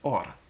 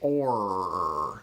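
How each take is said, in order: First: The R is a quick tongue tap. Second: The R is a held approximant sound. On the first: "speaking in some accent that had a tapped R" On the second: "in English, we say or, and you can kind of hold it"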